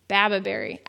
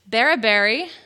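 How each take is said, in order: First: The second syllable is said as 'ba'. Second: The second syllable is said as 'ra'. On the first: The speaker calls it right. "It's Bababerry" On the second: The speaker calls it wrong. "I'm not saying it right"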